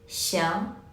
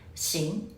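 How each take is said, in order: First: The vowel blends between 'ee' and 'ya'. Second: The vowel is a plain 'ee' sound. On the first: The speaker calls it right. "싱이랑 샹 요거의 그 중간 어딘가" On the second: The speaker calls it wrong. "많은 학생들이 발음 어떻게 해주시냐면 싱, 싱 그냥 이렇게 발음하세요"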